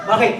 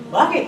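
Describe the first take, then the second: First: Said in the usual way. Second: Put-on higher Kapampangan-accented "Bakit?" with a rising lilt; mimicking a Kapampangan friend's accent, higher. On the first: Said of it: "Ganun siya magsalita eh". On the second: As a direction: imitate the Kapampangan brother's "Bakit?" pitched up. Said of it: "Ganun siya magsalita eh. Malulus Kapampangan".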